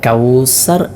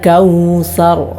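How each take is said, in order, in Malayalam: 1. മധ്യത്തിലെ വ്യഞ്ജനം s ശബ്ദമാണ്. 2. മധ്യത്തിലെ വ്യഞ്ജനം th ശബ്ദമാണ്. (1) "പലരും ഓതാറുള്ളത് കൗസർ എന്ന് സീനായിട്ടാണ്" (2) "സീനല്ല, സ ആണ്"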